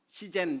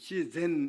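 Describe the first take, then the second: First: The word is pronounced like a small child. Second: The word is pronounced in the standard way. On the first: The speaker calls it wrong. "시젠 이러면은 유치원생 발음이거든요" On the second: The speaker calls it right. "시젠 이러면은 자연이란 뜻인데요"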